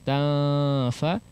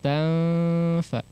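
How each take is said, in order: First: The nasal is dropped, lips held far apart. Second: A light hidden nasal glides into the f. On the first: The speaker calls it wrong. "tidak terlalu jauh ta fa" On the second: The speaker calls it right. "pertengahan tanfa"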